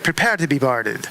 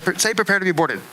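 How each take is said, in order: First: A light Jamaican brogue, like a pirate; a hint of Jamaican brogue. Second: Said in the usual way. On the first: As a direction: lightly imitate a Jamaican girl sounding like a pirate. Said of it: "she sounds like a pirate". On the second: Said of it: "say 'prepare to be boarded' in this".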